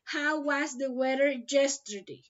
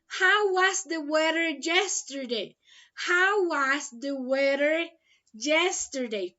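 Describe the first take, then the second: First: Said in the usual way. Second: Reads the question slowly, word by word; slow and clear. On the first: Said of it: "same question at normal pace". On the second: Shown as a demonstration. Teacher reading the question to her online class, slow and clear. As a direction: spell it out slowly for learners. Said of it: "teacher reads question slowly, twice".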